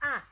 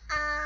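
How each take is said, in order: First: It is said with the fourth tone. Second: It is said with the first tone.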